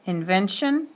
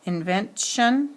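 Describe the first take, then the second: First: Said in the usual way. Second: "invention" split as invent, then shun; suffix set apart. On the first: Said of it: "final accent is on the T". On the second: Shown as a demonstration. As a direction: say "invention" in pieces, pausing before "tion". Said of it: "accent falls on the syllable right before the suffix".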